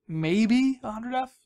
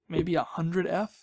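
First: Slow and higher, stretching "maybe a hundred F"; drawn-out repeat. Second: Said in the usual way. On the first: Shown as a demonstration. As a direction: draw out "maybe a hundred F" slowly, pitched up.

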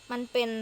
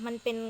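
The two takes are said the same way.

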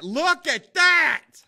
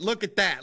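First: High, loud, drawn-out excitement; amazed yell. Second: Said in the usual way. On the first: Real, not acted. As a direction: stretch every word in loud amazement. Repeats it, amazed at his work.

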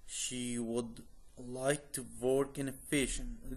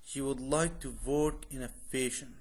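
First: Slow careful model reading. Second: Said in the usual way. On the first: Shown as a demonstration. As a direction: read it slowly for learners to repeat. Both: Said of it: "read twice, second slower".

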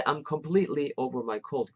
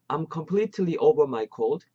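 First: "completely" with the T held back; connected native-style "completely" as the alternative; linked natural completely. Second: "completely" with every syllable spelled out; easy learner's version, "completely" unreduced; fully sounded completely. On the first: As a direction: run "completely" together, T unreleased. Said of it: "요렇게도". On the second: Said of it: "이렇게 하면 안 돼?". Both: Shown as a demonstration.

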